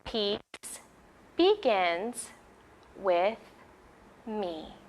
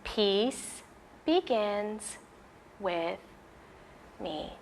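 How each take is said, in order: Both takes have the same delivery.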